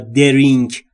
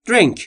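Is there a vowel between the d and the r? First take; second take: yes; no. First: An extra vowel is heard between d and r. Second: The d and r are joined with no vowel. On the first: The speaker calls it wrong. "نمیگم درینک" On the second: The speaker calls it right. "توجه بکنید تلفظ drink"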